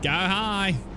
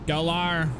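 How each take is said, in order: First: The second word sounds like plain 'high'. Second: The second word sounds like 'liar'.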